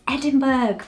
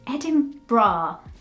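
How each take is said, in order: First: The ending sounds like 'burg'. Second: The ending sounds like 'bra'. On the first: The speaker calls it wrong. "Easier to read it as Edinburgh" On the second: The speaker calls it right. "It's Edinburgh. But there's no bra, there's a berg at the end"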